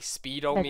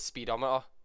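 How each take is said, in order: First: It is said split as speedo plus meter. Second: It is said the usual way, as one word. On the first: It sounds like a measure of speedos. The speaker calls it wrong. "I'd say speedometer" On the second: It names the gauge in a car. The speaker calls it right. "I wouldn't say it's speedometer"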